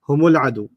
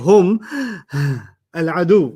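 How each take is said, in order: First: Hum runs into the next word through mu. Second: Hum ends in a bare m before al. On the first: The speaker calls it right. "You keep connecting" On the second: The speaker calls it wrong. "you don't say"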